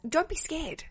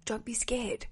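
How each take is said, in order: First: Said in the usual way. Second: Softer, soothing repeat of the words; calm a nervous listener, gently; gently reassuring. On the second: Shown as a demonstration.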